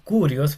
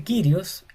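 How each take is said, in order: First: Curios with a plain Spanish u; wrong u sound. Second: Kyrios with an i said through rounded u lips; Greek upsilon. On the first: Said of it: "y no Curios". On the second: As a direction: say Kyrios with the y like French u. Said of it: "se pronuncia Kyrios". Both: Shown as a demonstration.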